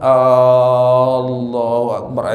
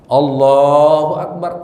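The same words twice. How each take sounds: First: The opening vowel is stretched out long. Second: The opening vowel is kept short. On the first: It questions whether God is the greatest. The speaker calls it wrong. "Atau A-nya kepanjangan" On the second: God is affirmed as the greatest. The speaker calls it right. "Ada cukup situ. Enak juga dengarnya"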